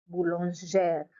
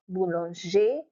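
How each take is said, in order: First: "boulangère" ending in zhair, falling; feminine ending. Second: "Boulanger" ending in an open zhay, rising; masculine ending. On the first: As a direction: say "boulangère" as boo-lon-ZHAIR with its R. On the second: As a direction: say "Boulanger" as boo-lon-ZHAY, no R. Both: Shown as a demonstration. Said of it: "The ending is different".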